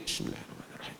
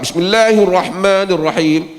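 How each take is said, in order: First: The phrase is said quietly. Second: The phrase is said loudly.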